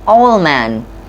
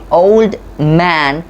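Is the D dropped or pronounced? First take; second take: dropped; pronounced. First: The D before man is dropped. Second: The D before man is pronounced. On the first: The speaker calls it right. "a T or a D between two consonant sounds, it's often get removed" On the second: The speaker calls it wrong. "We don't say"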